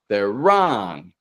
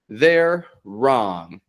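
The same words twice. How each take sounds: First: The two R sounds merge into one. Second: The two R sounds are said separately. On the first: The speaker calls it right. "It all connects seamlessly" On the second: The speaker calls it wrong. "we don't have to get ... they're wrong"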